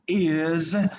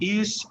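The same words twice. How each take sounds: First: The word ends with a buzzing z sound. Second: The word ends with a hissing s sound. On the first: The speaker calls it right. "the correct pronunciation would be is" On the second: The speaker calls it wrong. "I used to say it like in Spanish"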